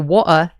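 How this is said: It is said in a British accent.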